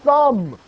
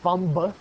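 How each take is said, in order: First: The B sound is silent. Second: The B sound is pronounced. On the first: The speaker calls it right. "It's a thumb" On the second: The speaker calls it wrong. "It's not a thumb"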